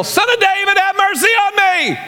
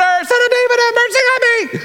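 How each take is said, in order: First: Imitated desperate yell. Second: Very high, desperate scream for mercy; imitated louder scream. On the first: Blind man calling to Jesus outside Jericho, yelling. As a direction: yell it out, stretching the plea. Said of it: "he hears somebody yell". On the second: Blind man refusing to be silenced by the crowd, screaming. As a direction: scream the plea at the top of your pitch. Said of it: "he just screams even louder".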